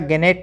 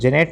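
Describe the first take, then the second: First: The word begins with a g sound. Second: The word begins with a j sound. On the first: "गेनेट नहीं पढ़ना" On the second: "जेनेट नहीं पढ़ना"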